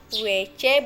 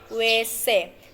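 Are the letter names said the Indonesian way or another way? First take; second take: Indonesian way; another way. First: The letters are named the Indonesian way. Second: The letters are named a non-Indonesian way. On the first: The speaker calls it right. "dibaca W C" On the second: The speaker calls it wrong. "bukan dibaca W C"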